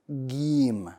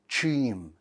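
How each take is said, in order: First: It begins with a hard G sound. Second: It begins with a breathy CH sound. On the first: "A G sound, like the English G" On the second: "if you add air to this letter, it's going to turn to a C H sound"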